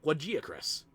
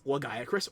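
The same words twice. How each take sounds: First: The g is said as a soft g. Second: The g is said as a hard g. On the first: "some people go with the soft G" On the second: "some people go with the hard G"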